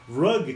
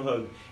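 First: The word begins with an English R sound. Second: The word begins with a breathy H-like sound. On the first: It means a carpet. The speaker calls it right. "Em vez de falar rug, que é tapete" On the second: It sounds like the word for a hug. The speaker calls it wrong. "você tá falando rug. É por causa do Ricardo e do Ronaldo"

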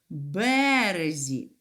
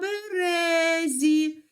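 First: The stress is on the first syllable. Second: The stress is on the second syllable. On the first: It means on the riverbank. "І наголос падає на перший склад" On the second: It means on the birch tree. "Наголос падає на другий склад"

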